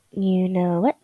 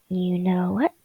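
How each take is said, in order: First: Said in the usual way. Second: "You know what?" all breath, no voice; whispering. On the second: Shown as a demonstration. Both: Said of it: "You know what? (whispered take)".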